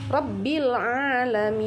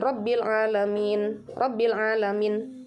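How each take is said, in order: First: "alamin" with long held mii and hummed n; four-count ending. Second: "alamin" with final n stopped early; cut-short ending. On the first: Teacher shows four counts, "Rabbil alamin" with long final syllable. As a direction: recite "Rabbil alamin" slowly, stretching the ending. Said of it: "empat harokat ya". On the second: Teacher shows what not to do, "Rabbil alamin" ending clipped short. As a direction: end "Rabbil alamin" short, no long hum. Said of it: "Enggak, enggak seperti itu ya". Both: Shown as a demonstration.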